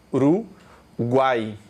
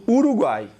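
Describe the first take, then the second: First: "Uruguai" split very slowly into U, ru, guai; syllable division. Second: Said in the usual way. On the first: Shown as a demonstration. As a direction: say "Uruguai" in three separate, lower syllables. ("Uruguai" sílaba por sílaba, com pausas: U, ru, guai) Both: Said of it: "Você vai fazer uma divisão silábica".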